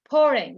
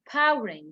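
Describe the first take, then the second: First: The first vowel sounds like the one in 'pour'. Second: The first vowel sounds like the one in 'power'. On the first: The speaker calls it right. "you have to to um to pronounce the past sound correctly" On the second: The speaker calls it wrong. "This is not powering"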